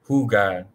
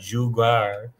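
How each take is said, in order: First: The word begins with a breathy H sound. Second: The word begins with an English J sound. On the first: The speaker calls it right. "J is pronounced as H" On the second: The speaker calls it wrong. "not jugar"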